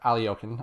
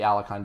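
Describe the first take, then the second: First: The name is said closer to its native pronunciation. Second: The name is said with an Americanized pronunciation. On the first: The speaker calls it right. "Aliokin, I should say" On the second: The speaker calls it wrong. "my American pronunciation"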